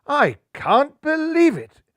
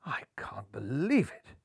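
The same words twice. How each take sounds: First: Much higher, louder, slow I can't believe it; shocked exclamation. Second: Whispered in disbelief; shocked whisper. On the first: Skipper finding the stowaway, loud shocked exclamation. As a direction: burst out in disbelief. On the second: Skipper finding the stowaway, in a shocked whisper. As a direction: breathe it out in shock. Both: Acted. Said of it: "gasped a shocked Golden Hair".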